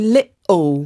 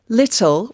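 First: The middle consonant is a glottal stop. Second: The middle consonant is a clear t sound. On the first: "what's called your glottal" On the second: "instead of saying little"

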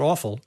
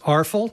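First: The word is said without an R sound. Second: The word is said with an R sound. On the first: "not awful" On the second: "It has an R, or sometimes we say it's arful"

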